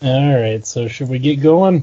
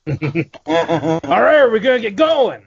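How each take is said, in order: First: Low-energy, lower-pitched kickoff; unexcited. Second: Crank up the energy in mock enthusiasm; pumped up. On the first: Real, not acted. Host half-heartedly asks the crew to get going, unexcited. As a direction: ask it with no pep at all. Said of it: "You sound way too fucking excited". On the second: Host answers a call to get pumped up, hyped. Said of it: "You need to get pumped up".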